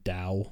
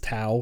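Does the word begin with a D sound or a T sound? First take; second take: D; T. First: The word begins with a D sound. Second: The word begins with a T sound. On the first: "in standard Mandarin, it's actually pronounced Dao" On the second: "There is a pronunciation that is Tao for real"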